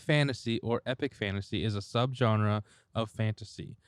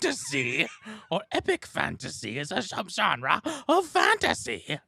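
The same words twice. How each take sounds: First: It is read in a plain, flat voice. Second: It is read in a grand, theatrical voice.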